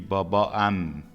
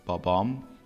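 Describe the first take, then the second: First: Two a vowels are said before the final m. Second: One a vowel is said before the final m. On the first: The speaker calls it wrong. "if you have this a and then a, then it will be babaam. That will be difficult" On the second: The speaker calls it right. "we drop one vowel and we read it like this"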